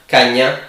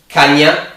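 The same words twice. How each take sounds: No difference in how they are said.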